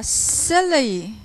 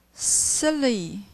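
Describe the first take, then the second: First: "silly" clipped short with a strong stress; stressed shorter silly. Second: Said in the usual way. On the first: Shown as a demonstration. Teacher models a short, stressed "silly". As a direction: punch "silly" short and hard. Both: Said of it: "I think it's more stress".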